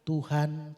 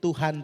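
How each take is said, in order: First: The word is repeated at a slower pace. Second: The word is repeated at a faster pace. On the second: "Kalau lebih cepat lagi"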